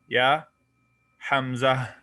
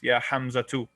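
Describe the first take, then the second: First: The name ends with a soft 'h' sound. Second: The name ends with a full 'tu' syllable. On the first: This is how people actually say it. "the ta marbuta is pronounced like a ha in actual speech" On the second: This is the strict classical form. "it's actually yeah Hamza too"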